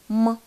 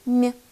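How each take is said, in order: First: The m sound is hard, not palatalized. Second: The m sound is soft, palatalized. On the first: "твердый звук «м»" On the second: "мягкий звук «м»"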